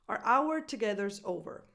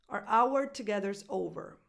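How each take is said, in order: The two takes are said the same way.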